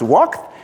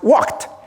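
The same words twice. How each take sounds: First: The ending is said with a d-like sound. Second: The ending is said with a t-like sound. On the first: The speaker calls it wrong. "it's not actually pronounced walked" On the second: The speaker calls it right. "it's pronounced walked, ... to a T-like sound"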